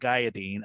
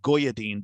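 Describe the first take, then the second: First: The first syllable sounds like 'gay'. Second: The first syllable sounds like 'go'. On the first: The speaker calls it right. "but it's actually" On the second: The speaker calls it wrong. "at first I'd pronounce it"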